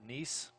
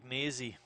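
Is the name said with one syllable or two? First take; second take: one; two. First: The name is said as one syllable. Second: The name is said as two syllables. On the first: This is the newer pronunciation. "now pronouncing it Neese" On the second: This is the older pronunciation. "I like Nazy"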